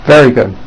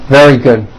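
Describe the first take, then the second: No difference in how they are said.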